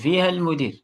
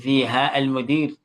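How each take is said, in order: First: The long final vowel of fiha is dropped. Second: The long final vowel of fiha is kept. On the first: It is the loose form used in speech. "this mud will go. It will not be pronounced" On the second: It is the careful form expected when reading. "you may not have to say"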